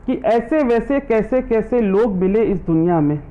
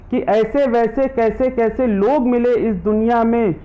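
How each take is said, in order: Both takes have the same delivery.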